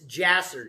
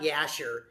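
First: The word begins with a J sound. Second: The word begins with a Y sound. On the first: The speaker calls it right. "it's Jasher, J-J-J" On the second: The speaker calls it wrong. "Not Yasher"

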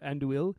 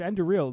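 First: No r sound is heard before the last syllable. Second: An r sound is heard before the last syllable. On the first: The speaker calls it wrong. "not Anduil" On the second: The speaker calls it right. "it's Anduril"

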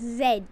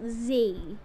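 First: The letter is said the Australian and English way. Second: The letter is said the other, non-English way. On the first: The speaker calls it right. "in Australia and England, it's pronounced Z" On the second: The speaker calls it wrong. "not Z"

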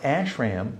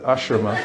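First: The word ends on a consonant sound. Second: The word ends on a vowel sound. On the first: The speaker calls it wrong. "Not ashram" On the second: The speaker calls it right. "but ashrama"

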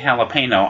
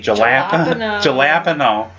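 First: It does not begin with an English J sound. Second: It begins with an English J sound. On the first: The speaker calls it right. "I almost never say jalapeno" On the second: The speaker calls it wrong. "I always say jalapeno, because, I mean, I know it's not right, but I just have this kind of mental block where I see the J"

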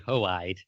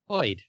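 First: The name is split into two syllables. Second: The name is said as one syllable.

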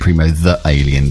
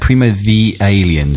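First: 'The' is said 'thuh', with a harsher break. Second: 'The' is said 'thee', linking into 'Alien'. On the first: The speaker calls it wrong. "there's like a harsher sort of cutoff" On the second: The speaker calls it right. "sounds better"

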